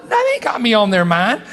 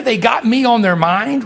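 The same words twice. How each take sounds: First: Moved, emphatic answer. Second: Asked with a rising, unsure tune; doubting question. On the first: Preacher assuring himself the dead think of him, tearful emphasis. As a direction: answer your own doubt, overcome. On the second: Preacher doubting that dead family think of him, rising question. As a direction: wonder aloud whether it can be true. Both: Retold or imitated. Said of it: "I'm thinking to myself".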